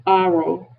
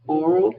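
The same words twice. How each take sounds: First: "Oral" as "AH-rul", open first vowel; aural with an A. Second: "Oral" as "AW-rul", rounded first vowel. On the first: Teacher modelling the ear word for students, A sound. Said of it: "oral with an A". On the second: Teacher modelling the mouth word for students, O sound. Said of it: "oral with an O". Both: Shown as a demonstration.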